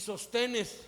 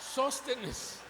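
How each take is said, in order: First: The stress falls on a later syllable. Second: The stress falls on the first syllable. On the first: The speaker calls it wrong. "Algunos leen así" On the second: The speaker calls it right. "Tiene acento en la O"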